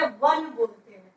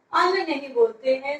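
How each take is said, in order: First: वन said with a clear w sound at the start; वन spoken slowly with the w at the front; correct pronunciation. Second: अन said as a bare vowel with no w sound; अन as the wrong, w-less reading; wrong pronunciation. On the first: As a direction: begin वन on a w glide. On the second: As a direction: start अन straight on the vowel. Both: Shown as a demonstration.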